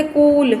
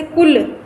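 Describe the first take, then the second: First: कूल with a long drawn-out oo; wrong long vowel. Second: कुल with a short, quick u; short vowel. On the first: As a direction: stretch the vowel in कूल as a mistake demo. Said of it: "ऐसे नहीं बोल सकते कूल". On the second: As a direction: keep the u in कुल brief. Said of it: "ऐसे नहीं बोल सकते". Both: Shown as a demonstration.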